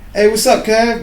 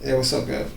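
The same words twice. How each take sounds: First: The greeting sounds cheerful and normal. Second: The greeting sounds off, like something's up.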